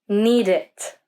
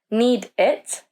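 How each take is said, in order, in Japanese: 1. 2つの単語は間を空けずにつながっています。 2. 2つの単語は間が空いて離れています。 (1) "we say need it" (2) "We don't say need it"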